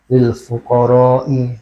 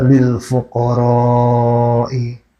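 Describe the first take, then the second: First: The vowel in fuqara is kept short. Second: The vowel in fuqara is drawn out long. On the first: The speaker calls it wrong. "tanpa dipanjangkan" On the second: The speaker calls it right.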